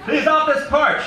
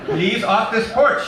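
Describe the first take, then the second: First: Very high, loud, slow echoing yell; shouted back. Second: Put-on high, loud, slow accented old-lady yell; accented shout. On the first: Acted. Eddie shouting Poltoy's words back at her, very high and loud. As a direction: hurl the order back, gleefully mimicking her. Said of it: "she shouted back". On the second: Poltoy shouting at Eddie through the screen, slow accented yell. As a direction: draw out the order to get off. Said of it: "she shouted".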